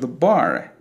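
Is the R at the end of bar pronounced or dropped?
pronounced. The R at the end is pronounced.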